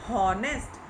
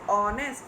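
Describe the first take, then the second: First: The word begins with an h sound. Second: The word begins with a vowel sound. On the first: The speaker calls it wrong. "अगर हम इसको एच को भी sound को साथ में लेंगे तो it will become हॉनेस्ट" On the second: The speaker calls it right. "It is ऑनेस्ट"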